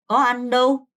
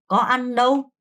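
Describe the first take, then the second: No difference in how they are said.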